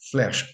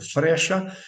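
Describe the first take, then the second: First: The word begins with an 'fl' sound. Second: The word begins with an 'fr' sound. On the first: This is the current standard form. "de se pronunciar flecha" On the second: This is the older medieval form. "Frecha já foi a maneira correta"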